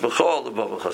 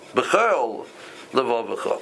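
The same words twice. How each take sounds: First: The two words run together without a pause. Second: There is a pause between the two words. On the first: The first word is joined to the next word. The speaker calls it right. "you can't really pause there" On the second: The first word stands on its own. The speaker calls it wrong.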